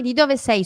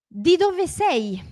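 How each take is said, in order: First: Said in the usual way. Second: High, slowly drawn-out "Di dove sei?"; slow model question. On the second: Shown as a demonstration. Teacher introducing where-from question, slow model. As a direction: stretch each word for learners.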